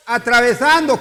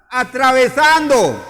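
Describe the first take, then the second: First: Said in the usual way. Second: Atravesando stretched slowly, louder and higher; emphasis on atravesando. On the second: Shown as a demonstration. Preacher shows the congregation how to stress atravesando, slow and emphatic. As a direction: lean hard on atravesando, drawing it out. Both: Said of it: "póngale énfasis al atravesando".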